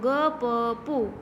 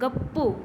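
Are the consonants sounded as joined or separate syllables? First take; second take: separate; joined. First: Each letter is sounded as its own syllable. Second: The doubled consonant is joined into one cluster.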